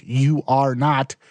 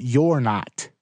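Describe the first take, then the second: First: Slow, "You are not" with "You are" said as two separate words; uncontracted you are. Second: The easy contraction "You're not"; contracted you're. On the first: Teaching bloggers which spelling to avoid. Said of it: "don't spell out". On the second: Teaching bloggers the spelling to use. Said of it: "Spell out". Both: Shown as a demonstration.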